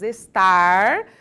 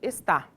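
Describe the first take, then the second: First: The final R sound is clearly pronounced. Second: The final R sound is dropped completely. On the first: "no lugar de nós falarmos estar" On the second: "Ele tem o hábito de não pronunciar o R final das palavras"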